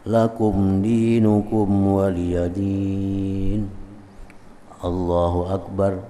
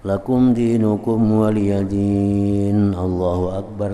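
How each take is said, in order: First: A short pause comes before Allahu Akbar. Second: Allahu Akbar follows directly without a pause.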